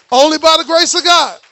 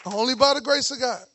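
First: Much louder declaration of faith; loud proclamation. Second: Said in the usual way. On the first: Acted. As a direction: call it out strong to the church. Preacher repeats line, loud then soft.

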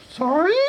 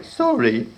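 First: Very high puzzled squeak; squeaky creature. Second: Said in the usual way. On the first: Acted. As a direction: ask like a confused goblin. Apprentice puzzled.

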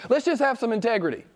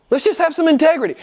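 First: High, quick appeal without added volume; earnest appeal. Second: Loud, high, rapid appeal; forceful exhortation. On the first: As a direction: plead briskly for honesty, pitched high. Appeal, first of two takes. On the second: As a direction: fire it out at full preaching force. Appeal repeated with full force. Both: Real, not acted.

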